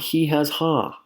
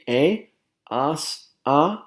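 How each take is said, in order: First: Each word begins with an audible h sound. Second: Each word begins with no h sound. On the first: The speaker calls it wrong. "This is not he has ha" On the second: The speaker calls it right. "It should be"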